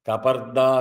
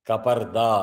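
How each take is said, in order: The two takes are said the same way.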